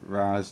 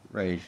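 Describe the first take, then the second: First: The name ends with a z sound. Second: The name ends with an sh sound. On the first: "sometimes people pronounce it Raz" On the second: "sometimes people pronounce it Raish"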